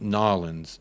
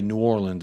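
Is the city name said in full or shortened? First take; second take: shortened; full. First: The name is squeezed into a short two-syllable form. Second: The name is said in full, syllable by syllable. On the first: The speaker calls it right. "it's pronounced Nolans" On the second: The speaker calls it wrong. "you don't say New Orleans"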